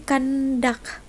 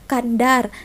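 First: The word ends with a k-like stop. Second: The word ends with an r sound. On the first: This is the northern dialect pronunciation. "Q belakangnya, bukan R" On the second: This is the usual pronunciation. "Biasanya kan kandar"

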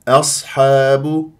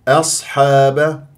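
No difference in how they are said.

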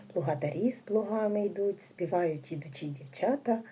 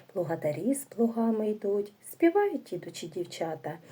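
No difference in how they are said.

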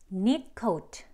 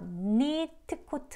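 First: The t of neat is stopped, not released. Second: The t of neat is fully released. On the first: The speaker calls it right. "그냥 트 소리가 안 들려요" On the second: The speaker calls it wrong. "니트 코트 하지 않고요"

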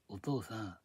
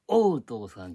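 First: The first vowel is a plain open 'o'. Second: The first vowel sounds like English 'oh'. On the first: The speaker calls it right. "発音記号のこうなんじゃん。C の逆さまのやつさ。" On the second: The speaker calls it wrong. "お父さんじゃなくて"

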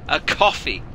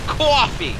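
First: It is said in the speaker's own accent. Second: It is said in a New York accent.

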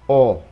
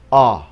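First: A warm, compact vowel with tightly rounded lips. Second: An open vowel said with the mouth wider. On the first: "Giọng của người Anh thì nó sẽ ấm hơn, nó gọn hơn, lại vì cái miệng người ta nó sẽ chúm lại" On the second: "Người Mỹ miệng nó mở ra nhiều hơn"

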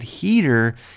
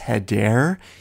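First: The name is said like 'Heater'. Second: The name is said like 'Hedare'. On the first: The speaker calls it wrong. "He said Heater" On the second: The speaker calls it right. "It's Hedair"

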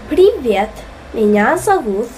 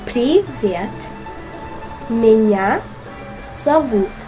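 First: It is said at normal speed. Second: It is said slowly.

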